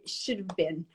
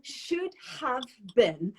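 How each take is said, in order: First: The words are shortened into a contraction. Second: Both words are said fully and separately. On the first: "you guys say" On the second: "for example"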